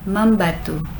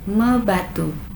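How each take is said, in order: First: An 'm' sound links the prefix to batu. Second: The prefix joins batu with no added sound. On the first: The speaker calls it right. "simply for ease of pronunciation" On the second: The speaker calls it wrong. "which one is more comfortable to pronounce"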